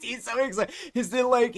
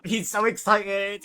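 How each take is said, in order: First: Squeaky, higher-pitched repeat of the gush; even higher gush. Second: Bright, eager gush about him; gushing excitement. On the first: Narrator squealing to viewers over excited Argus. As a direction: push it up into a delighted squeal. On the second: Narrator gushing to viewers about Argus. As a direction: sell how thrilled he is. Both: A narrator's reading.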